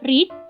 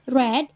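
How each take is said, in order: First: The vowel is long, like 'reed'. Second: The vowel is short, like 'red'. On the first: It is the present form of the verb. "read untuk verb pertama" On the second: It is the past form of the verb. "read untuk verb kedua"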